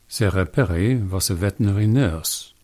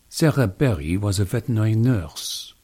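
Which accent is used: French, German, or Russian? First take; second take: German; French. First: It is spoken in a German accent. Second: It is spoken in a French accent. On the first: "If you shouted out German, I've done my job right. Because I changed the W to a V" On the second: "you'd be able to shout out French right away"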